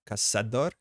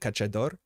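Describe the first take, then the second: First: The middle consonant sounds like 's'. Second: The middle consonant sounds like 'ch'. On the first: The speaker calls it right. "this should be pronounced probably Caçador" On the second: The speaker calls it wrong. "not the Cachador"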